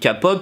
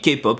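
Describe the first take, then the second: First: It is pronounced the French way. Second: It is pronounced the English way. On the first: The speaker is simply French. "Si vous êtes un pur français" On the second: The speaker wants to show off a little. "Si vous voulez un peu vous la péter, la dire à l'anglaise"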